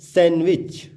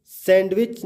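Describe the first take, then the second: First: सैंडविच said as "san-wich"; सैंडविच with n straight into w; silent D. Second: सैंडविच said as "sand-wich"; सैंडविच with a clear D before the w; sounded D. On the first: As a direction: drop the D in सैंडविच. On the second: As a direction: pronounce the D in सैंडविच. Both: Shown as a demonstration. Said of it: "सैंडविच ना बोल के".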